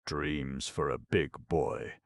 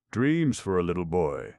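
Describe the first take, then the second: First: Put-on big-boy label. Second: Put-on little-boy label. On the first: Label on Notta's package, slow big-boy reading.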